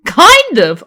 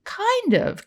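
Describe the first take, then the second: First: Loud, high, exasperated Kind of?. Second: High, smirking Kind of. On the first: Jill blurts back at her friend, loud and exasperated. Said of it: "exasperated sigh". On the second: Karen admits it to her friend with a smirk. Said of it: "Karen smirked". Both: Acted.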